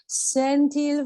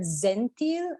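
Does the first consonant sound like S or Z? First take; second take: S; Z. First: The word begins with a hissing S sound. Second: The word begins with a buzzing Z sound. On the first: The speaker calls it right. "It's an S sound" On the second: The speaker calls it wrong. "I heard zentil, and it's not a Z sound"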